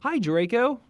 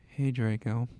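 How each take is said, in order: First: Bright, higher and louder hello; cheerful greeting. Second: A touch of gloom, lower and subdued; depressing voice. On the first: Shown as a demonstration. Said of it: "No, oh, sorry". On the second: Acted. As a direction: say hello like nothing matters, mildly glum. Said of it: "I said in a depressing voice".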